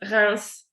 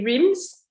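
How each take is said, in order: First: It is said the way French speakers say it. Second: It is said the way British speakers say it.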